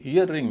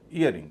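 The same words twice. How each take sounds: First: ईयर रिंग as two words, each with its R; both R's sounded. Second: ईयरिंग run together with only one R; single R. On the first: Teacher showing what not to say, ईयर रिंग with two R's. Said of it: "इसे ईयर रिंग नहीं कहेंगे". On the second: Teacher giving the correct form, ईयरिंग with single R. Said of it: "उच्चारण केवल एक आर का हो रहा है". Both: Shown as a demonstration.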